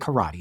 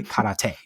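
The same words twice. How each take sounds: First: It is pronounced the usual English way. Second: It is pronounced the original Japanese way. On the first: This is how everyone says it. "Everyone's going to say karate" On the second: Nobody says it this way. "Nobody's going to say karate"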